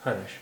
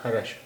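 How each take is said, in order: First: A full vowel follows the r sound. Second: The same.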